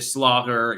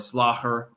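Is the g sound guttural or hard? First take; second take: hard; guttural. First: The g is a plain hard g sound. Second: The g is a rough throaty sound. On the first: The speaker calls it wrong. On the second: The speaker calls it right.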